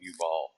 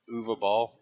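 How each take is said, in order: First: The name is said in two syllables. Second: The name is said in three syllables. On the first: The speaker calls it wrong. "I always mispronounce his name and call him Ubal" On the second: The speaker calls it right. "How do you act? Uva Ball?"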